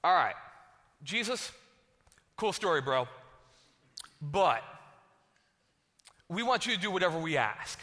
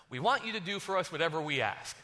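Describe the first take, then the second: First: Cocky brush-off. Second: Said in the usual way. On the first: Retold or imitated. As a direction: wave off the big speech and make the demand. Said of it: "they're like". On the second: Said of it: "scripture read plainly".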